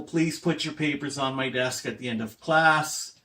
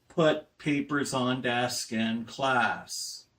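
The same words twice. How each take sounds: First: Said in the usual way. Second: Slow keywords "put papers on desk in class", each word weighted; only the stressed words. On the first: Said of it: "Focus on stress". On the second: Shown as a demonstration. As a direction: say just the key words slowly, like a telegram. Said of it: "Focus on stress, put papers on desk in class".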